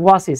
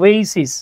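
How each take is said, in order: First: The word begins with a 'wah' sound. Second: The word begins with an 'oh-ay' sound. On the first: The speaker calls it wrong. "আমি বলেছিলাম ওয়াসিস" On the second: The speaker calls it right. "এটা উচ্চারণ হচ্ছে ওয়েসিস"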